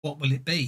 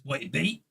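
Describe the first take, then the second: First: Said in the usual way. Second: "What it be" with the words run into one; "What it be" said as a single merged word, ending on a rise; run-together words. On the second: Shown as a demonstration. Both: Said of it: "He seems to concatenate things".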